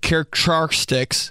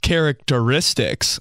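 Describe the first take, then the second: First: The word comes out garbled and stumbled. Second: The word comes out smooth and clear. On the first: The speaker calls it wrong. "I hate every time I mess up a word when I'm reading" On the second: The speaker calls it right. "now that I'm one hundred percent smarter, the word is characteristics"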